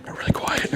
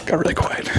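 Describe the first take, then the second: First: Half-whispered aside about the silence; hushed. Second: Said in the usual way. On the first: Shown as a demonstration. Whispering to the viewers that the room went quiet. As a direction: breathe it out, barely voiced.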